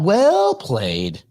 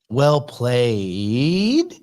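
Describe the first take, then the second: First: The pitch goes up, then falls at the end. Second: The pitch rises at the end. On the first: It is an exclamatory statement. "if you go up and then down" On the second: It is asked as a question. "If you do the intonation at the end of well played, it becomes a question"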